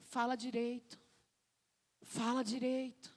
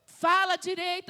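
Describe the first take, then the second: First: Soft, restrained command; God correcting gently. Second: Raised, high-pitched scolding order; exasperated parent. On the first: God answering a complaining believer, quiet correction. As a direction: say it quietly, with calm authority. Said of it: "Deus tá falando". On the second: Parent to a crying child who can't be understood, exasperated. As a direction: cut through the child's wailing impatiently. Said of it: "aí você fala pra ela assim". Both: Acted.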